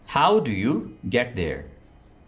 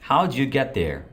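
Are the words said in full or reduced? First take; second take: full; reduced. First: Each word is said fully and separately. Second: The words are reduced and run together.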